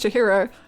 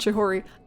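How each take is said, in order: First: The middle syllable is hi, the last is ro. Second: The middle syllable is ho, the last is ri. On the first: The speaker calls it right. "it's Chihiro" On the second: The speaker calls it wrong. "not Chihori"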